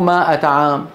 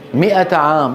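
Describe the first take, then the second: First: The first vowel is a long 'aa' sound. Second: The first vowel is a short 'i' sound. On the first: The speaker calls it wrong. "مو مائة عام" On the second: The speaker calls it right.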